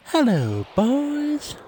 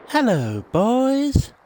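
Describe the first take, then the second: First: "boys" swoops up high in a put-on voice; sing-song hello from a mum at the door; imitating a cartoon mum's greeting; Cartman's mum. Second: "boys" swoops up high and louder in a put-on voice; sing-song hello from a mum at the door; imitating a cartoon mum's greeting; Cartman's mum. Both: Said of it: "Cartman's mum opens the door and she just says".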